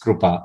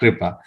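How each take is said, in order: First: The first syllable is said as 'kru'. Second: The first syllable is said as 'kri'. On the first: This is the true Sanskrit form. The speaker calls it right. "if you're truly looking for a Sanskrit word, then it is Krupa" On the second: This is not the true Sanskrit form. The speaker calls it wrong. "and not Kripa"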